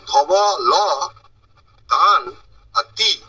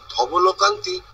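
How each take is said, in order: First: ধব, ল, কান, তি split by pauses, each hit firmly; syllable by syllable. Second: Said in the usual way. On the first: Shown as a demonstration. Teacher showing syllables pronounced separately, ধব – ল – কান – তি apart. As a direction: separate ধবলকান্তি into isolated pieces. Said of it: "আলাদা করে উচ্চারণ হয়". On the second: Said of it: "একসাথে বলতে হবে".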